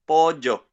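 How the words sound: It is said in a younger Paraguayan accent. "another Paraguayan guy, but this guy is fifteen and he doesn't say pollo, he says pollo"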